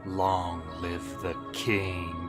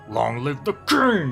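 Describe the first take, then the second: First: It is whispered slowly in a sinister tone. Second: It is said quickly and loudly, not whispered. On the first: The betrayal feels menacing and serious. The speaker calls it right. "he just sinisterly whispers it to him" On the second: The moment has no gravitas. The speaker calls it wrong. "the weirdly dumb rushed way"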